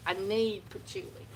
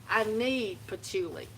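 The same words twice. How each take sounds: The two takes are said the same way.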